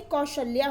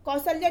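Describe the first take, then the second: First: Said in the usual way. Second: कौशल्या as kausalya, with s; wrong pronunciation. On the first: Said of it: "कौशल्या होता है". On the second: Shown as a demonstration. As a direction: put a plain s in कौशल्या instead of sh. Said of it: "कौशल्या नहीं".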